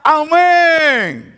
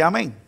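First: High, jubilant shout of amen; joyful congregation shout. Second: Soft, low, half-hearted amen; grudging congregation amen; reluctant amen. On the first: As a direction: leap on it, a full-voiced amen. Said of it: "salta y grita". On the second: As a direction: mumble it like you'd rather not agree. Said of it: "vuelve y dice". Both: Pretend.

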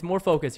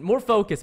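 First: Said in the usual way. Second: "More" pushed louder then "focus"; stress on more. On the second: Acted. Gamer coaching himself, "More" stressed. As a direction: press hard on "More".

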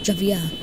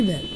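First: Javier with a short first syllable and "vee-uh" ending; Javier said ha-vee-AIR style. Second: Javier read slowly as "JAY-vuh"; Javier said JAY-ver. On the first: Second go at the name. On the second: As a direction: say Javier with a stretched JAY and a weak ending. Tries a name, then says it again. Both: Real, not acted.

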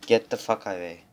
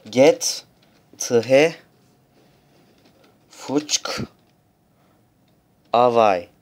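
First: Said in the usual way. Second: Each word punched out loud; loud mock curse. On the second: (kelime kelime bağırılan küfür)

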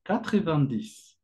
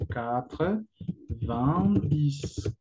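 First: Said in the usual way. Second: "quatre, vingt, dix" drawn out, pausing between words; word-by-word pronunciation. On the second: Shown as a demonstration. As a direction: teach "quatre, vingt, dix" slowly, one word at a time. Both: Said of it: "La pronunciación".

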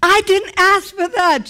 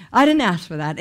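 First: High, loud, indignant cry; mad protest. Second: Said in the usual way. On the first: Retold or imitated. Angry at God over unasked healing, loud and high. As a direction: throw it up at God, high and hot. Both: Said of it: "And I was so mad".

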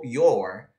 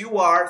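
First: "your" as a single lower syllable; joined word. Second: "you are" apart, louder; separate words. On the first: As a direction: squeeze "you are" into one "your". ("your" juntado, em tom grave) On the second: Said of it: "Em vez de". ("you are" separado e mais forte) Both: Shown as a demonstration.

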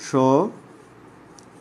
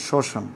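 First: শ্মশান drawn out slowly, sho ... shan; syllable by syllable. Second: Said in the usual way. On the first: Shown as a demonstration. Teacher spelling out for students, শ্মশান in slow separated syllables. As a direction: stretch the first syllable of শ্মশান, then pause. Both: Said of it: "একটু লক্ষ্য করো".

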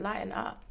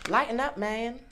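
First: Said in the usual way. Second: Cards' message. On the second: Pretend. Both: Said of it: "It's saying lighten up".

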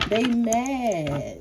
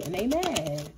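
First: Sing-song taunt, pitched up; teasing higher repeat. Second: Said in the usual way. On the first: Shown as a demonstration. Repeating to the viewer that the haters are mad, in a teasing taunt. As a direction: rub it in playfully.

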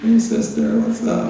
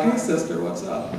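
First: Much higher, flamboyant hey sister, breathy what's up. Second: Lightly higher sing-song hey sister, trailing off; a hint of playful camp lingo. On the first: Retold or imitated. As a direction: ham up the camp lingo. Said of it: "They're like".

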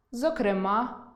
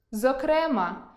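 First: Зокрема stressed on the final а, зокрема́, slowly; stress on the last syllable. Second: Зокрема stressed on е, зокре́ма; stress on the middle syllable. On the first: Teacher giving the variant зокрема́. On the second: Teacher demonstrating зокре́ма as a variant. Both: Shown as a demonstration. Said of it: "Наприклад".

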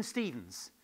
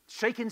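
First: Said in the usual way. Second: Loud, high excited call-out. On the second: Real, not acted. Speaker calls the answer across the room, loud and high. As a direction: blurt the name out to the room.

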